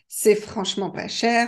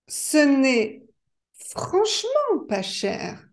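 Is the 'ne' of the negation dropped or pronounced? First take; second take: dropped; pronounced. First: The negation word ne is left out. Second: The negation word ne is clearly pronounced. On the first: This is the everyday spoken form. "quand on parle, il n'est pas toujours nécessaire de prononcer le ne" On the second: This is the complete negation, as used in writing. "vous avez entendu que j'ai prononcé la négation complète, ne pas"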